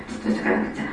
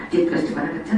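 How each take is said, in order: First: Breathy whisper, じっとしとかなくちゃ said almost without voice; a child whispering じっとしとかなくちゃ to himself; whispered inner speech. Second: Said in the usual way. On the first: Shown as a demonstration. Child holding still, whispering じっとしとかなくちゃ to himself. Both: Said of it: "頭の中で使うのが内言語".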